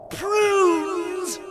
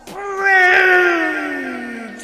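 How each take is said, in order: First: High, puzzled echo, called out; perplexed. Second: Huge high bellow on one long word. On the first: Algernon questions the housekeeper's odd answer, perplexed. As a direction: repeat the word loudly in bafflement. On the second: Missus Grumblebaum answers Algernon across the sky, bellowing. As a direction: bellow it out, holding the vowel. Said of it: "bellowed Missus Grumblebaum". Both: A narrator's reading.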